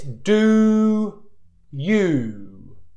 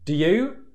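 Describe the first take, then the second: First: The oo vowel is fully finished before the next word. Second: The oo vowel is cut short into the next word. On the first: The speaker calls it right. "So the correct pronunciation is this" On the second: The speaker calls it wrong. "Which isn't good pronunciation"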